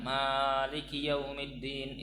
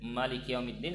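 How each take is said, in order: First: The first vowel of Maliki is held long. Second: The first vowel of Maliki is kept short. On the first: "dengan bacaan panjang" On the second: "bacaan dengan pendek"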